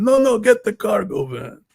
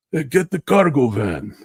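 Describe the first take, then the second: First: Very high, loud mock Italian accent with a long stretched "No"; Italian pizzeria guy. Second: High, loud mock Italian accent; Italian pizzeria accent, "cargo" stretched and punched high; Italian pizzeria guy. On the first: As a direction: insist on the "cargo van" in a shrieking hammed-up Italian pizzeria voice. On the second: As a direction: bark the order like a pizzeria owner in a hammed-up Italian accent. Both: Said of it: "Italian guy, like a pizzeria".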